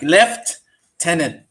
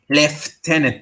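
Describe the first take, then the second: First: It is said in a non-British accent. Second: It is said in a British accent.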